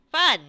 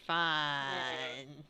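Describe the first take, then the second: First: Loud, high burst of "fun"; mock enthusiasm. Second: Low, soft, drawn-out "fun"; joyless deadpan. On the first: Acted reaction to monastery routine. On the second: Acted. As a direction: let the fun drain out of it. Joyless reaction to monastery routine.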